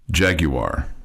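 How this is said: It is pronounced in a European way. "the European way to pronounce this"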